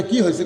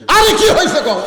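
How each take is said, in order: First: Said in the usual way. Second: High, loud, insistent question; exasperated demand. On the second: Acted. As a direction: burst out demanding an answer from a tearful wife. Husband asks again, losing patience. (অধৈর্য হয়ে চড়া গলায় জিজ্ঞাসা)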